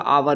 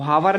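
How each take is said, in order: First: The word begins with a vowel sound. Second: The word begins with an h sound. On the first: The speaker calls it right. "आपका आवर होता है" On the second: The speaker calls it wrong. "हावर नहीं होता है"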